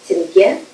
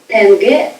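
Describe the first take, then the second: First: The vowel is a softer ye sound. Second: The vowel is a plain, hard e. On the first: The speaker calls it right. "the letter ye is read similarly to the Russian ye" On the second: The speaker calls it wrong. "and not as e. Not"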